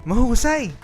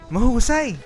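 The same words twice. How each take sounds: No difference in how they are said.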